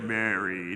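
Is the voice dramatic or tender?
dramatic. A deep, dramatic movie-trailer voice says the name. The speaker calls it wrong. "Or was it like movie trailer"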